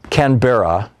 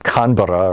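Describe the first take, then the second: First: It is said in an American accent. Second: It is said in an imitated Australian accent.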